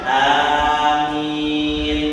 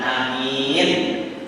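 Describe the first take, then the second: First: The first vowel is drawn out long. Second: The first vowel is cut short. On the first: It is a plea for the prayer to be answered. "A-nya panjang, mi-nya panjang" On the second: It means an honest, trustworthy person. "A-nya pendek, mi-nya panjang"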